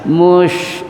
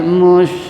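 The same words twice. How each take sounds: First: The sh sound is very thick and heavy. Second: The sh sound is moderately thick, in between. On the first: The speaker calls it wrong. "Jangan mush, itu terlalu tebal" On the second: The speaker calls it right. "karena dia tengah-tengah"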